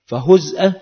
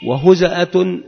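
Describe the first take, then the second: First: فهزأة with no vowel after the z, "fa-huz'a"; sukun on the zay. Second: وهزأة with a short a after the z, "wa-huza'atun"; vowelled zay. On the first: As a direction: say فهزأة as "huz'a", z closed onto the hamza. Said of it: "بالتسكين". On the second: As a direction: say وهزأة as "huza'a", opening the middle syllable. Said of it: "بالتحريك". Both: Shown as a demonstration.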